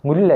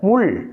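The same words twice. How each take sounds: First: The final L sound is plain, tongue behind the teeth. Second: The final L sound is retroflex, tongue curled back. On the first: The speaker calls it wrong. "முள் அல்ல" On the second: The speaker calls it right. "அழுத்தம் திருத்தமாக சொல்ல வேண்டும்"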